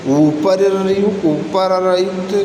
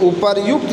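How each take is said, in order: First: उपरयुक्त stretched slowly, syllable by syllable u-pa-ra-yukt; slow wrong form. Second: उपर्युक्त said crisply as u-par-yukt with the joined r; correct form. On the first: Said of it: "उपर्युक्त यही शुद्ध होता". (गलत रूप उपरयुक्त धीरे से) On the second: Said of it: "यही शुद्ध होता". (सही रूप उपर्युक्त स्पष्ट) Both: Shown as a demonstration.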